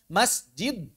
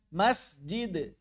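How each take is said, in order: First: The final d is held back without release. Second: The final d is released with a light bounce. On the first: "berat. Jadi seperti ditelan suaranya" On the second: "Yang gampang dilepas lagi itu si lidahnya. ... itu lebih ringan"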